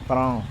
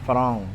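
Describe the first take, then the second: No difference in how they are said.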